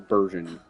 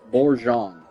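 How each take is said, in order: First: It is said with an American-style pronunciation. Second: It is said with a French-style pronunciation. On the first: "I think that's the uh, American pronunciation of that word" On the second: "But I don't speak French"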